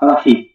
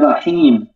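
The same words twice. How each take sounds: First: The final vowel is said short. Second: The final vowel is drawn out long. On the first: The speaker calls it wrong. "on ne dit pas Rahim" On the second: The speaker calls it right. "on dit Rahim"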